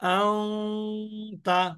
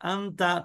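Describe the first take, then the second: First: The n becomes a held nasal hum. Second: The n is a clear, short n. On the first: The speaker calls it right. "অনেশ্বরের মতন উচ্চারণ করছি" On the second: The speaker calls it wrong. "ওইভাবে গুণনা হচ্ছে না, সঠিক উচ্চারণ হচ্ছে না"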